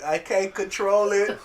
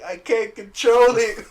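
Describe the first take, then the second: First: Slow mock whine; hammed-up whine of I can't control it; whiny Jean. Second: High, loud, slow mock wail; hammed-up high wail of I can't control it; whiny Jean. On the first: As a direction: drag it out helplessly. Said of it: "She's like". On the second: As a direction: wail it out helplessly. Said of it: "And she's like".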